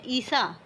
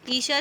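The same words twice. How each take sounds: First: ईसा with a hissed dental s; plain s sound. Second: ईशा with a sh in the middle; sh sound. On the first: Teacher reading the first look-alike word, ईसा with plain s. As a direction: say ईसा with s, not sh. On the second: Teacher reading the second look-alike word, ईशा with sh. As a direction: say ईशा with sh, not s. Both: Shown as a demonstration. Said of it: "एक में तालव्य स है और एक में मूर्धन्य स है".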